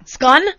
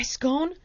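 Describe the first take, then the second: First: "Scone" with a short vowel, like "skon"; louder questioning "Scone", rhyming with "gone"; puzzled short vowel. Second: Said in the usual way. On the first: Retold or imitated. Bakery woman querying customer's word, puzzled short-vowel "Scone". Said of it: "And she goes". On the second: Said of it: "it says scone".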